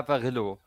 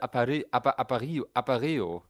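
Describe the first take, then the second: First: The word is said the plain German way. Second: The word is said with a Spanish-style sound.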